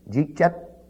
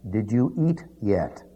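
First: It is run together, in a New York accent. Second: It is said fully, in a Western accent.

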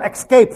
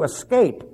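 First: The word begins with an ex sound. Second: The word begins with an es sound. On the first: The speaker calls it wrong. "There's no X in there. You don't escape from anything" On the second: The speaker calls it right. "You escape"

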